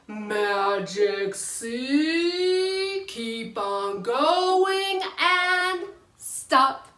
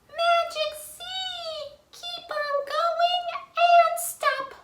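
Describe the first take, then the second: First: It is said in a normal voice. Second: It is said in a squeaky voice.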